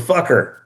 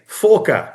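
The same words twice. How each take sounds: First: It is said in the speaker's normal accent. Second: It is said in another put-on accent. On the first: "I'll say it normally" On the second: "I'm gonna say it in a few a few accents"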